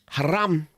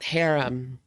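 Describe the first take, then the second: First: It is said like 'haram', with an open second vowel. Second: It is said like the English word 'harem'. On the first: The speaker calls it right. "Haram, not harem" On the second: The speaker calls it wrong. "not harem"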